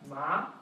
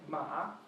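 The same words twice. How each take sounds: First: The pitch rises from middle to high. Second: The pitch dips down and then rises. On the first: "The second one rises like a question" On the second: "The third one goes down and up"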